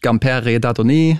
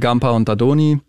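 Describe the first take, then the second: First: The name is pronounced with French sounds. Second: The name is pronounced with German sounds. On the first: "Französisch" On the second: "deutsch ausgesprochen"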